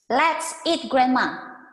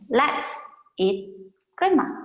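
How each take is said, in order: First: It runs straight on with no pause before Grandma. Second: There is a clear pause before Grandma.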